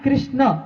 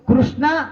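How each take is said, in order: First: The name ends without a final vowel. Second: The name ends with a long 'aa' vowel. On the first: It names Lord Krishna. The speaker calls it right. "आ नाही आला पाहिजे" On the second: It names Draupadi. The speaker calls it wrong. "आ शब्दाचा उच्चार येतो"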